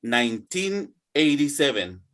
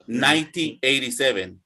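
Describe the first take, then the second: First: Put-on Nineteen eighty-seven with teen clearly marked; teacher sets one year against another; clear contrast, teen stressed. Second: Ninety eighty-seven with the weight on the first syllable of Ninety; teacher gives the contrasting number; contrast, stress on nine. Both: Shown as a demonstration. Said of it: "listen to the difference".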